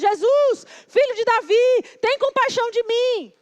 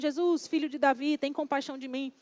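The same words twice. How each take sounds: First: It is said loudly, as a shout. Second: It is said softly and gently.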